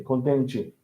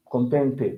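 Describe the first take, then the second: First: Softer "contente" ending like "chee"; E changed to I. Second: "Contente" ending in a clear "teh"; spelled E ending. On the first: Teacher contrasting sounds for learner, "contente" as "contenchee". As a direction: turn the last syllable of "contente" into "chee". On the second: Teacher contrasting sounds for learner, "Contente" ending as "teh". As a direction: keep the E at the end of "Contente". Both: Shown as a demonstration. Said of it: "we change, uh, E for, for I".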